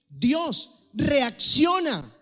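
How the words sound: It is said as an urgent wake-up command. Someone is being urged to snap out of it. "Como cuando alguien está moribundo, como cuando alguien no te presta atención"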